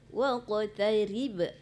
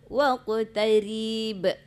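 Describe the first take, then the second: First: The vowel is short, going straight to b. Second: The vowel is drawn out before the b. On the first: The speaker calls it right. "Itu ri tipis, kemudian tidak ada mat situ. Langsung mati ba" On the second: The speaker calls it wrong. "sementara ibu tadi ucapkan waqtarib. Ha, itu udah menyalahi hukum tajwidnya"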